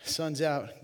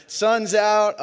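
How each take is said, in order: First: Said in the usual way. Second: Sun's out belted high and loud, punch on Suns; catchphrase shout. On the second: Shown as a demonstration. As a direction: yell the catchphrase out for the crowd. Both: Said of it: "I just like to say it".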